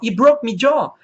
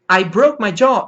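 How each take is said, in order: First: It is said in an Irish accent. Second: It is said in an American accent. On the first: "pronúncia irlandesa" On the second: "Pronúncia americana"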